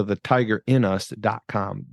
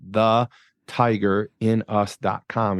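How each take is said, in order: First: Said in the usual way. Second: Slow, each word spelled out; slow repeat. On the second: Shown as a demonstration. Host repeating his website slowly for listeners. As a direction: say the web address slowly so it sticks. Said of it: "So you can go to the tiger in us dot com".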